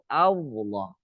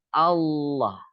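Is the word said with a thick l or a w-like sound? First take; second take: w sound; thick l. First: It is said with a w-like sound. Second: It is said with a thick l sound. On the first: The speaker calls it wrong. "Seolah-olah ada waw" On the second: The speaker calls it right. "Enggak ada waw di situ. Adanya lam. Lam yang ditebalkan"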